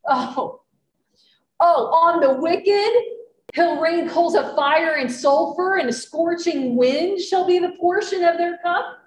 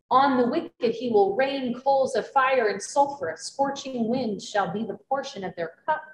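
First: It is said in a sarcastic, exaggerated tone. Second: It is read in a plain, straight tone.

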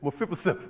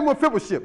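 First: The word is said with an 's' sound. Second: The word is said with an 'sh' sound. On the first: The speaker calls it wrong. "Instead of saying ship, he would say sip" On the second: The speaker calls it right. "say Mephibosheth"

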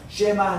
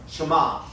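First: The first vowel is a full, clear 'e'. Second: The first vowel is a barely heard schwa. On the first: The speaker calls it wrong. "쉐마 하는 것은 너무 강조한 말이고" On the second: The speaker calls it right. "있는 듯 없는 듯"

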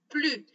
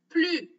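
The two takes are said the same way.

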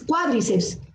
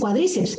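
First: The stress is on the first syllable. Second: The stress is on the second syllable. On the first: The speaker calls it right. "es cuádriceps" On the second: The speaker calls it wrong. "pero no dices cuádriceps"

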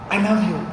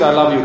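First: It is said sweetly and tenderly. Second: It is said flatly, without emotion.

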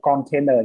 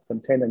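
First: The first vowel is a full o sound. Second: The first vowel is a weak, reduced schwa. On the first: The speaker calls it wrong. "Không đọc là container nhé. Vì như vậy là bạn không đảm bảo cái trọng, cái âm yếu của nó rồi" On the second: The speaker calls it right. "Container nhớ đọc như vậy"

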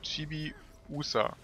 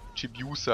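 First: The i and u are said as separate sounds. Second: The i and u merge into a yu sound. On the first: The speaker calls it right. "es ist eigentlich ein Chibi Usa, also ein Chibi und ein I und ein U" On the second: The speaker calls it wrong. "statt dem Deutschen, wo man da eben sagen würde, also Chibiusa, also ein U, quasi ein J-U"

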